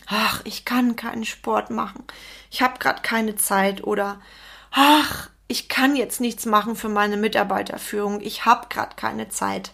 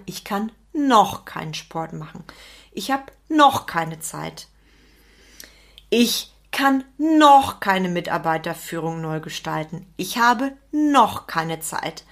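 First: Mildly acted "ach, I can't" resignation; put-upon excuse with a sighing "ach"; fixed-mindset excuses. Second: "noch" held and weighted; deliberate delivery leaning on every "noch"; stress on noch. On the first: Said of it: "Menschen im fixen Mindset sagen immer". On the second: Acted. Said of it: "Die Menschen im Wachstumsmindset sagen".

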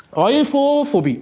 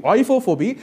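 First: Euphophobie said slowly, higher and set apart; slow careful word. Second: Said in the usual way. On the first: Shown as a demonstration. Announcing the next phobia to the listener, slow and deliberate. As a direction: present Euphophobie slowly, syllable by syllable.

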